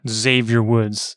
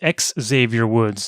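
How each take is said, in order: First: The name begins with a 'z' sound. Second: The name begins with an 'ex' sound. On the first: The speaker calls it wrong. "not Xavier Woods" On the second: The speaker calls it right. "I have to correct you. It's X Xavier Woods"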